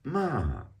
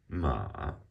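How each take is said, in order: First: The pitch falls sharply from high. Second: The pitch dips low, then rises.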